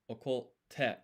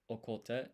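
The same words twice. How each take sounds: First: Okote with a held pause before the t, slow and stressed; geminate t. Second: Said in the usual way. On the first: Shown as a demonstration. Teacher demonstrating okote with a held t to learners. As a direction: okote said slowly, pausing on the doubled t. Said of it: "put a pause and an extra emphasis on the T". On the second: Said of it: "place extra emphasis on the consonant".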